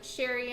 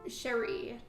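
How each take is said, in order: First: The name is said with an American accent. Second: The name is said with a French accent. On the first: "pronounced like Sherry in American English" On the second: "In French, it's pronounced like Sherry"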